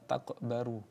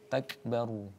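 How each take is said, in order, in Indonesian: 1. Bunyi k diucapkan berlebihan, sehingga kata itu terpecah. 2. Bunyi k hanya punya hembusan ringan. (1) "jangan kemudian berlebihan" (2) "seperti seolah ada percikan"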